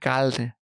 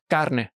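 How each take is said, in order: First: The r sounds like an l, Puerto Rican style. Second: The r is pronounced as a normal Spanish r.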